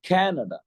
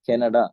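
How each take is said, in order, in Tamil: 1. வார்த்தை முழுவதும் ஏறி, பின்னர் இறங்குகிறது. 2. இந்த வார்த்தை சமமான, தட்டையான ஏற்ற இறக்கத்துடன் சொல்லப்படுகிறது. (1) "இப்படித்தான் அவங்க யூஸ் பண்ணுவாங்க" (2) "நாம என்ன செய்வோம்?"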